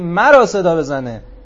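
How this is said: The word مرا carries strong emphasis. Call on this one alone and no other. The speaker calls it right. "یعنی غیر مرا صدا نزنه"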